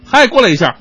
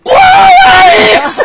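First: It is said at medium volume. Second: It is said very loudly, almost shouted.

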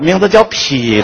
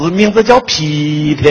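First: Tianjin accent, the pitch goes downward. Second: Sichuan accent on the name.

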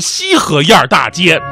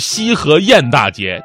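First: The syllable 沿 ends with an r-coloring. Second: The syllable 沿 has no r-coloring. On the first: The speaker calls it wrong. "我都会自我转化了" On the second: The speaker calls it right. "这个是不能儿化的"

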